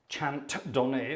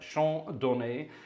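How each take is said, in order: First: It is said with a heavy, poor French accent. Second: It is said with a natural, fluent French accent. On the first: The speaker calls it wrong. "if you want to pronounce it in a terrible French" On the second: The speaker calls it right. "but Chant Donné"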